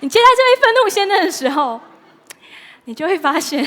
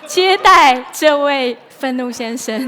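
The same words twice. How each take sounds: First: Much higher and louder, giggling over the words; laughing. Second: Slow, louder, squeezing words out between laughs; trying to recover from a giggle fit; laughing through it. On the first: Preacher still giggling while resuming the point, high. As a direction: push through, still laughing. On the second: Preacher still laughing at her joke, slowed down. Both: Real, not acted. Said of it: "笑完了吗".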